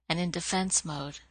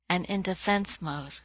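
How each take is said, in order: The two takes are said the same way.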